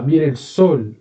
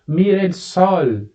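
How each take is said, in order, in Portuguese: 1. A vogal da última palavra é fechada. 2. A vogal da última palavra é aberta. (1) "Sempre fechado" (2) "Eu não falo mira el sol"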